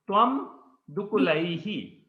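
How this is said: A pause separates the two words. "there is a pause"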